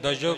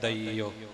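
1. ਵਿਚਕਾਰਲਾ ਹਿੱਸਾ 'j' ਧੁਨੀ ਨਾਲ ਬੋਲਿਆ ਜਾਂਦਾ ਹੈ। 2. ਵਿਚਕਾਰਲਾ ਹਿੱਸਾ 'ee' ਸਵਰ ਨਾਲ ਬੋਲਿਆ ਜਾਂਦਾ ਹੈ। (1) "ਇਹਨੂੰ ਦਜੋ ਕਰਕੇ ਨਹੀਂ ਬੋਲ ਦੇਣਾ" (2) "ਈੜੀ ਬਿਹਾਰੀ ਤੇ ਊੜੇ ਔਂਕੜ ਲਾ ਕੇ ਇਸਦਾ ਉਚਾਰਨ ਹੋਵੇਗਾ"

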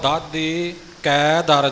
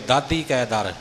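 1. ਦਾਦੀ ਤੋਂ ਠੀਕ ਬਾਅਦ ਵਿਰਾਮ ਹੈ। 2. ਸ਼ਬਦ ਬਿਨਾਂ ਵਿਰਾਮ ਦੇ ਇਕੱਠੇ ਚੱਲਦੇ ਹਨ। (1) "ਇਉਂ ਦਾਦੀ 'ਤੇ ਜਮਕ ਜ਼ਰੂਰ ਲੱਗੇਗੀ" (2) "ਇਉਂ ਨਹੀਂ ਬੋਲਣਾ"

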